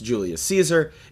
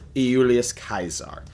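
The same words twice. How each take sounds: First: The name begins with a J sound. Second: The name begins with a Y sound. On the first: This is the usual modern pronunciation. "rather than be pronounced Julius Caesar" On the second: This follows the original Latin. "it was Julius Caesar"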